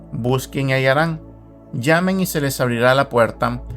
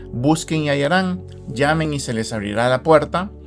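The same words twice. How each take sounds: No difference in how they are said.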